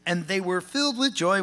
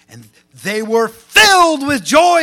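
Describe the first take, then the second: First: It is read flatly, without emphasis. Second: It is read with lively, strong emphasis. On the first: The speaker calls it wrong. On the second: The speaker calls it right.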